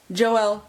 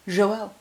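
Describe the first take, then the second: First: "Joelle" with a hard English j, jo-EL; English pronunciation. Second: "Joelle" as zho-el; French pronunciation. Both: Shown as a demonstration. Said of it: "It's very French".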